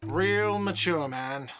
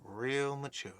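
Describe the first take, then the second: First: Slow, drawn-out whiny jab; whiny shout. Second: Quieter, sulky muttered repeat. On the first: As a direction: whine it after someone leaving. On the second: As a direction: mutter it sulkily under breath. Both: Acted. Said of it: "a whiny voice shouts".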